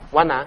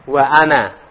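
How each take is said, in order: First: Wa runs smoothly into ana without a catch. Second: A glottal catch separates wa from ana. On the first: The speaker calls it wrong. "Wana enggak ada" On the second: The speaker calls it right. "Ana kan ada hamzah qati-nya ya. Wa ana"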